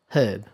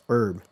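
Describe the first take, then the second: First: The word begins with an audible h sound. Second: The word begins with no h sound. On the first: "We also tend to pronounce the H in herb" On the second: "but American says herb"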